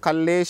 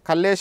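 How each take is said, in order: First: The name ends with an added 'a' vowel. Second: The name ends on a bare 'sh' consonant. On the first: "ఆ షకారంలో ఆ చేరి పూర్ణాక్షరంగా మారుతుంది" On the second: "నా లాస్ట్కి షకారం పొల్లు పలుకుతున్నాం"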